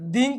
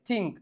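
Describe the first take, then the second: First: It starts with a voiced dh sound. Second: It starts with a voiceless th sound. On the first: The speaker calls it wrong. "ધીંક નહીં" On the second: The speaker calls it right. "નહીં થિંક"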